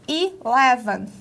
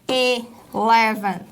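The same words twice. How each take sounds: First: Eleven begun with a clear "ee" sound, ilɛvɐn; eleven with an "i" onset, correct model. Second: Eleven begun with an open "e" sound, elɛvɐn; the common learner error, eleven with E; wrong eleven. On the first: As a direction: say eleven with I, not E, at the start. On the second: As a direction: mispronounce eleven with E at the start. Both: Shown as a demonstration. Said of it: "aqui não é som de E, mas som de I".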